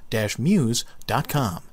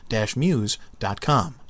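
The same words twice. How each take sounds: The two takes are said the same way.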